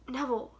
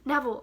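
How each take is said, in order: First: It is said in a throaty whisper. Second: It is said louder, not whispered.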